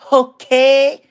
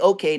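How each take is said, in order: First: It is said in an imitated foreign accent. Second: It is said in the speaker's usual accent. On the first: This is how those people say it. The speaker calls it right. "They say okay. You got to say it like them" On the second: This is not how those people say it. The speaker calls it wrong. "They don't say okay"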